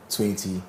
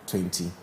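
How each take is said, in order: Both takes have the same delivery.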